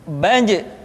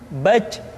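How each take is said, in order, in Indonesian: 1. J terakhir bersuara tanpa napas yang mengalir. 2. Napas terdengar mengalir keluar pada j terakhir. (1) "dia tidak boleh mengalir nafas" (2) "Ada nafas yang mengalir"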